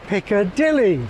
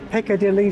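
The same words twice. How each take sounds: First: The strongest stress falls on dilly. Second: The strongest stress falls on picca. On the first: "Dilly stands out as more prominent" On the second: "Dilly is now less prominent than picker"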